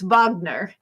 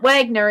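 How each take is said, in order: First: The name begins with a V sound. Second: The name begins with a W sound. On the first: The speaker calls it right. "because it's German. I think they pronounce it with a V" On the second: The speaker calls it wrong. "It isn't Wagner"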